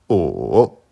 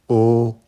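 First: The pitch dips low, then rises. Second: The pitch stays high and level. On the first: "Troisième ton" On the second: "premier ton"

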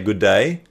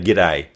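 First: Both words are said fully and separately. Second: The two words are squeezed into one syllable. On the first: This is the British way of saying it. "The British say good day" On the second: This is the Australian way of saying it. "We say g'day"

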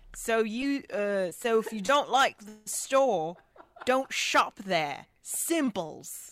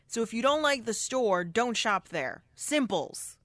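First: It is said in an attempted British accent. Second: It is said in the speaker's ordinary accent.

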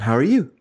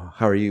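First: The greeting sounds warm and familiar. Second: The greeting sounds polite and distant. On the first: The speaker knows the listener well. "his is very much like, we know each other" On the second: The speaker is meeting someone unknown. "in a way that's like a stranger would say"

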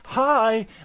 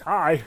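First: It is said in a child's voice. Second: It is said in a very deep voice.

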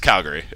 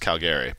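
First: The middle syllable sounds like 'ur'. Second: The middle syllable sounds like 'air'. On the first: This is how people in the city say it. The speaker calls it right. "It's the Uri, not the Airy" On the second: This is how people from the next province say it. The speaker calls it wrong. "they swear that it's Calgary"

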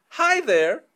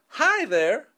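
The two takes are said the same way.

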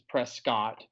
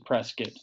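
First: The town name is said the outsider's way. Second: The town name is said the local way. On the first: The speaker is from out of town. The speaker calls it right. "saying it properly" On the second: The speaker fits in with the locals. The speaker calls it wrong. "saying it wrong"

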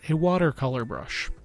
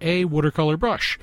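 First: It is said in a general American accent. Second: It is said in a Philadelphia accent.

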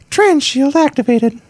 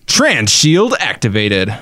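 First: It is said in a high falsetto voice. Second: It is said in a normal speaking voice. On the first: "Now do it in your woman voice. Or a falsetto"

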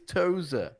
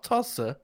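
First: The middle consonant is a z sound. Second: The middle consonant is an s sound. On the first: The speaker calls it right. "the hairpin at the top of the circuit is Toza" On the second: The speaker calls it wrong. "not Tossa"

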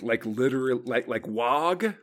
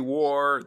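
First: The name ends with a hard G sound. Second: The name ends with an R sound. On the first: "I've heard people pronounce the G" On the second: "I've heard people add an R in there"

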